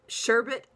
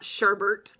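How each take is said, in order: First: The last syllable has no R sound. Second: The last syllable has an added R sound. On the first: The speaker calls it right. "It's sherbet" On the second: The speaker calls it wrong. "There's no second R in there"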